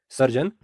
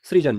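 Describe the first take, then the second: First: सर्जन with "sar" at the start; wrong pronunciation. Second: सृजन begun with "sri"; correct pronunciation. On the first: Teacher contrasting the wrong word, सर्जन said "sar-jan". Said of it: "अशुद्ध प्रयोग है". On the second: Teacher giving the correct word, सृजन said "sri-jan". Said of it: "जो कि शुद्ध प्रयोग है". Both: Shown as a demonstration.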